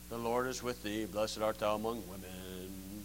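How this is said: It is recited in a flat monotone.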